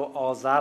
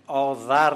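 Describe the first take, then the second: First: Said in the usual way. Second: آذر with ذ as a voiced th; old zal pronunciation. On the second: Shown as a demonstration. Linguist contrasts old and modern forms, آذر with interdental th. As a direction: say آذر as "aa-dhar", tongue between teeth.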